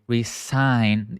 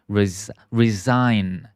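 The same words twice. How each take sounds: First: "resign" with a hissed S in place of Z; wrong S sound. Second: "resign" with a buzzing Z in the middle; Z sound. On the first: Teacher showing students the mistake, "resign" with S sound. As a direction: say "resign" slowly with an S in the middle. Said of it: "We don't say resign. It's not S". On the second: Teacher modelling for students, "resign" with Z sound. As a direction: say "resign" slowly, voicing the S as Z. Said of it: "we say it with the Z sound". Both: Shown as a demonstration.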